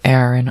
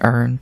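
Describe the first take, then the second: First: The name is said with two syllables. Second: The name is said as one syllable. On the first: This is the name's real pronunciation. The speaker calls it right. "I know it's Aaron" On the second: This pronunciation follows the spelling. The speaker calls it wrong. "I'm gonna keep saying Earn. That's how it's fucking spelled"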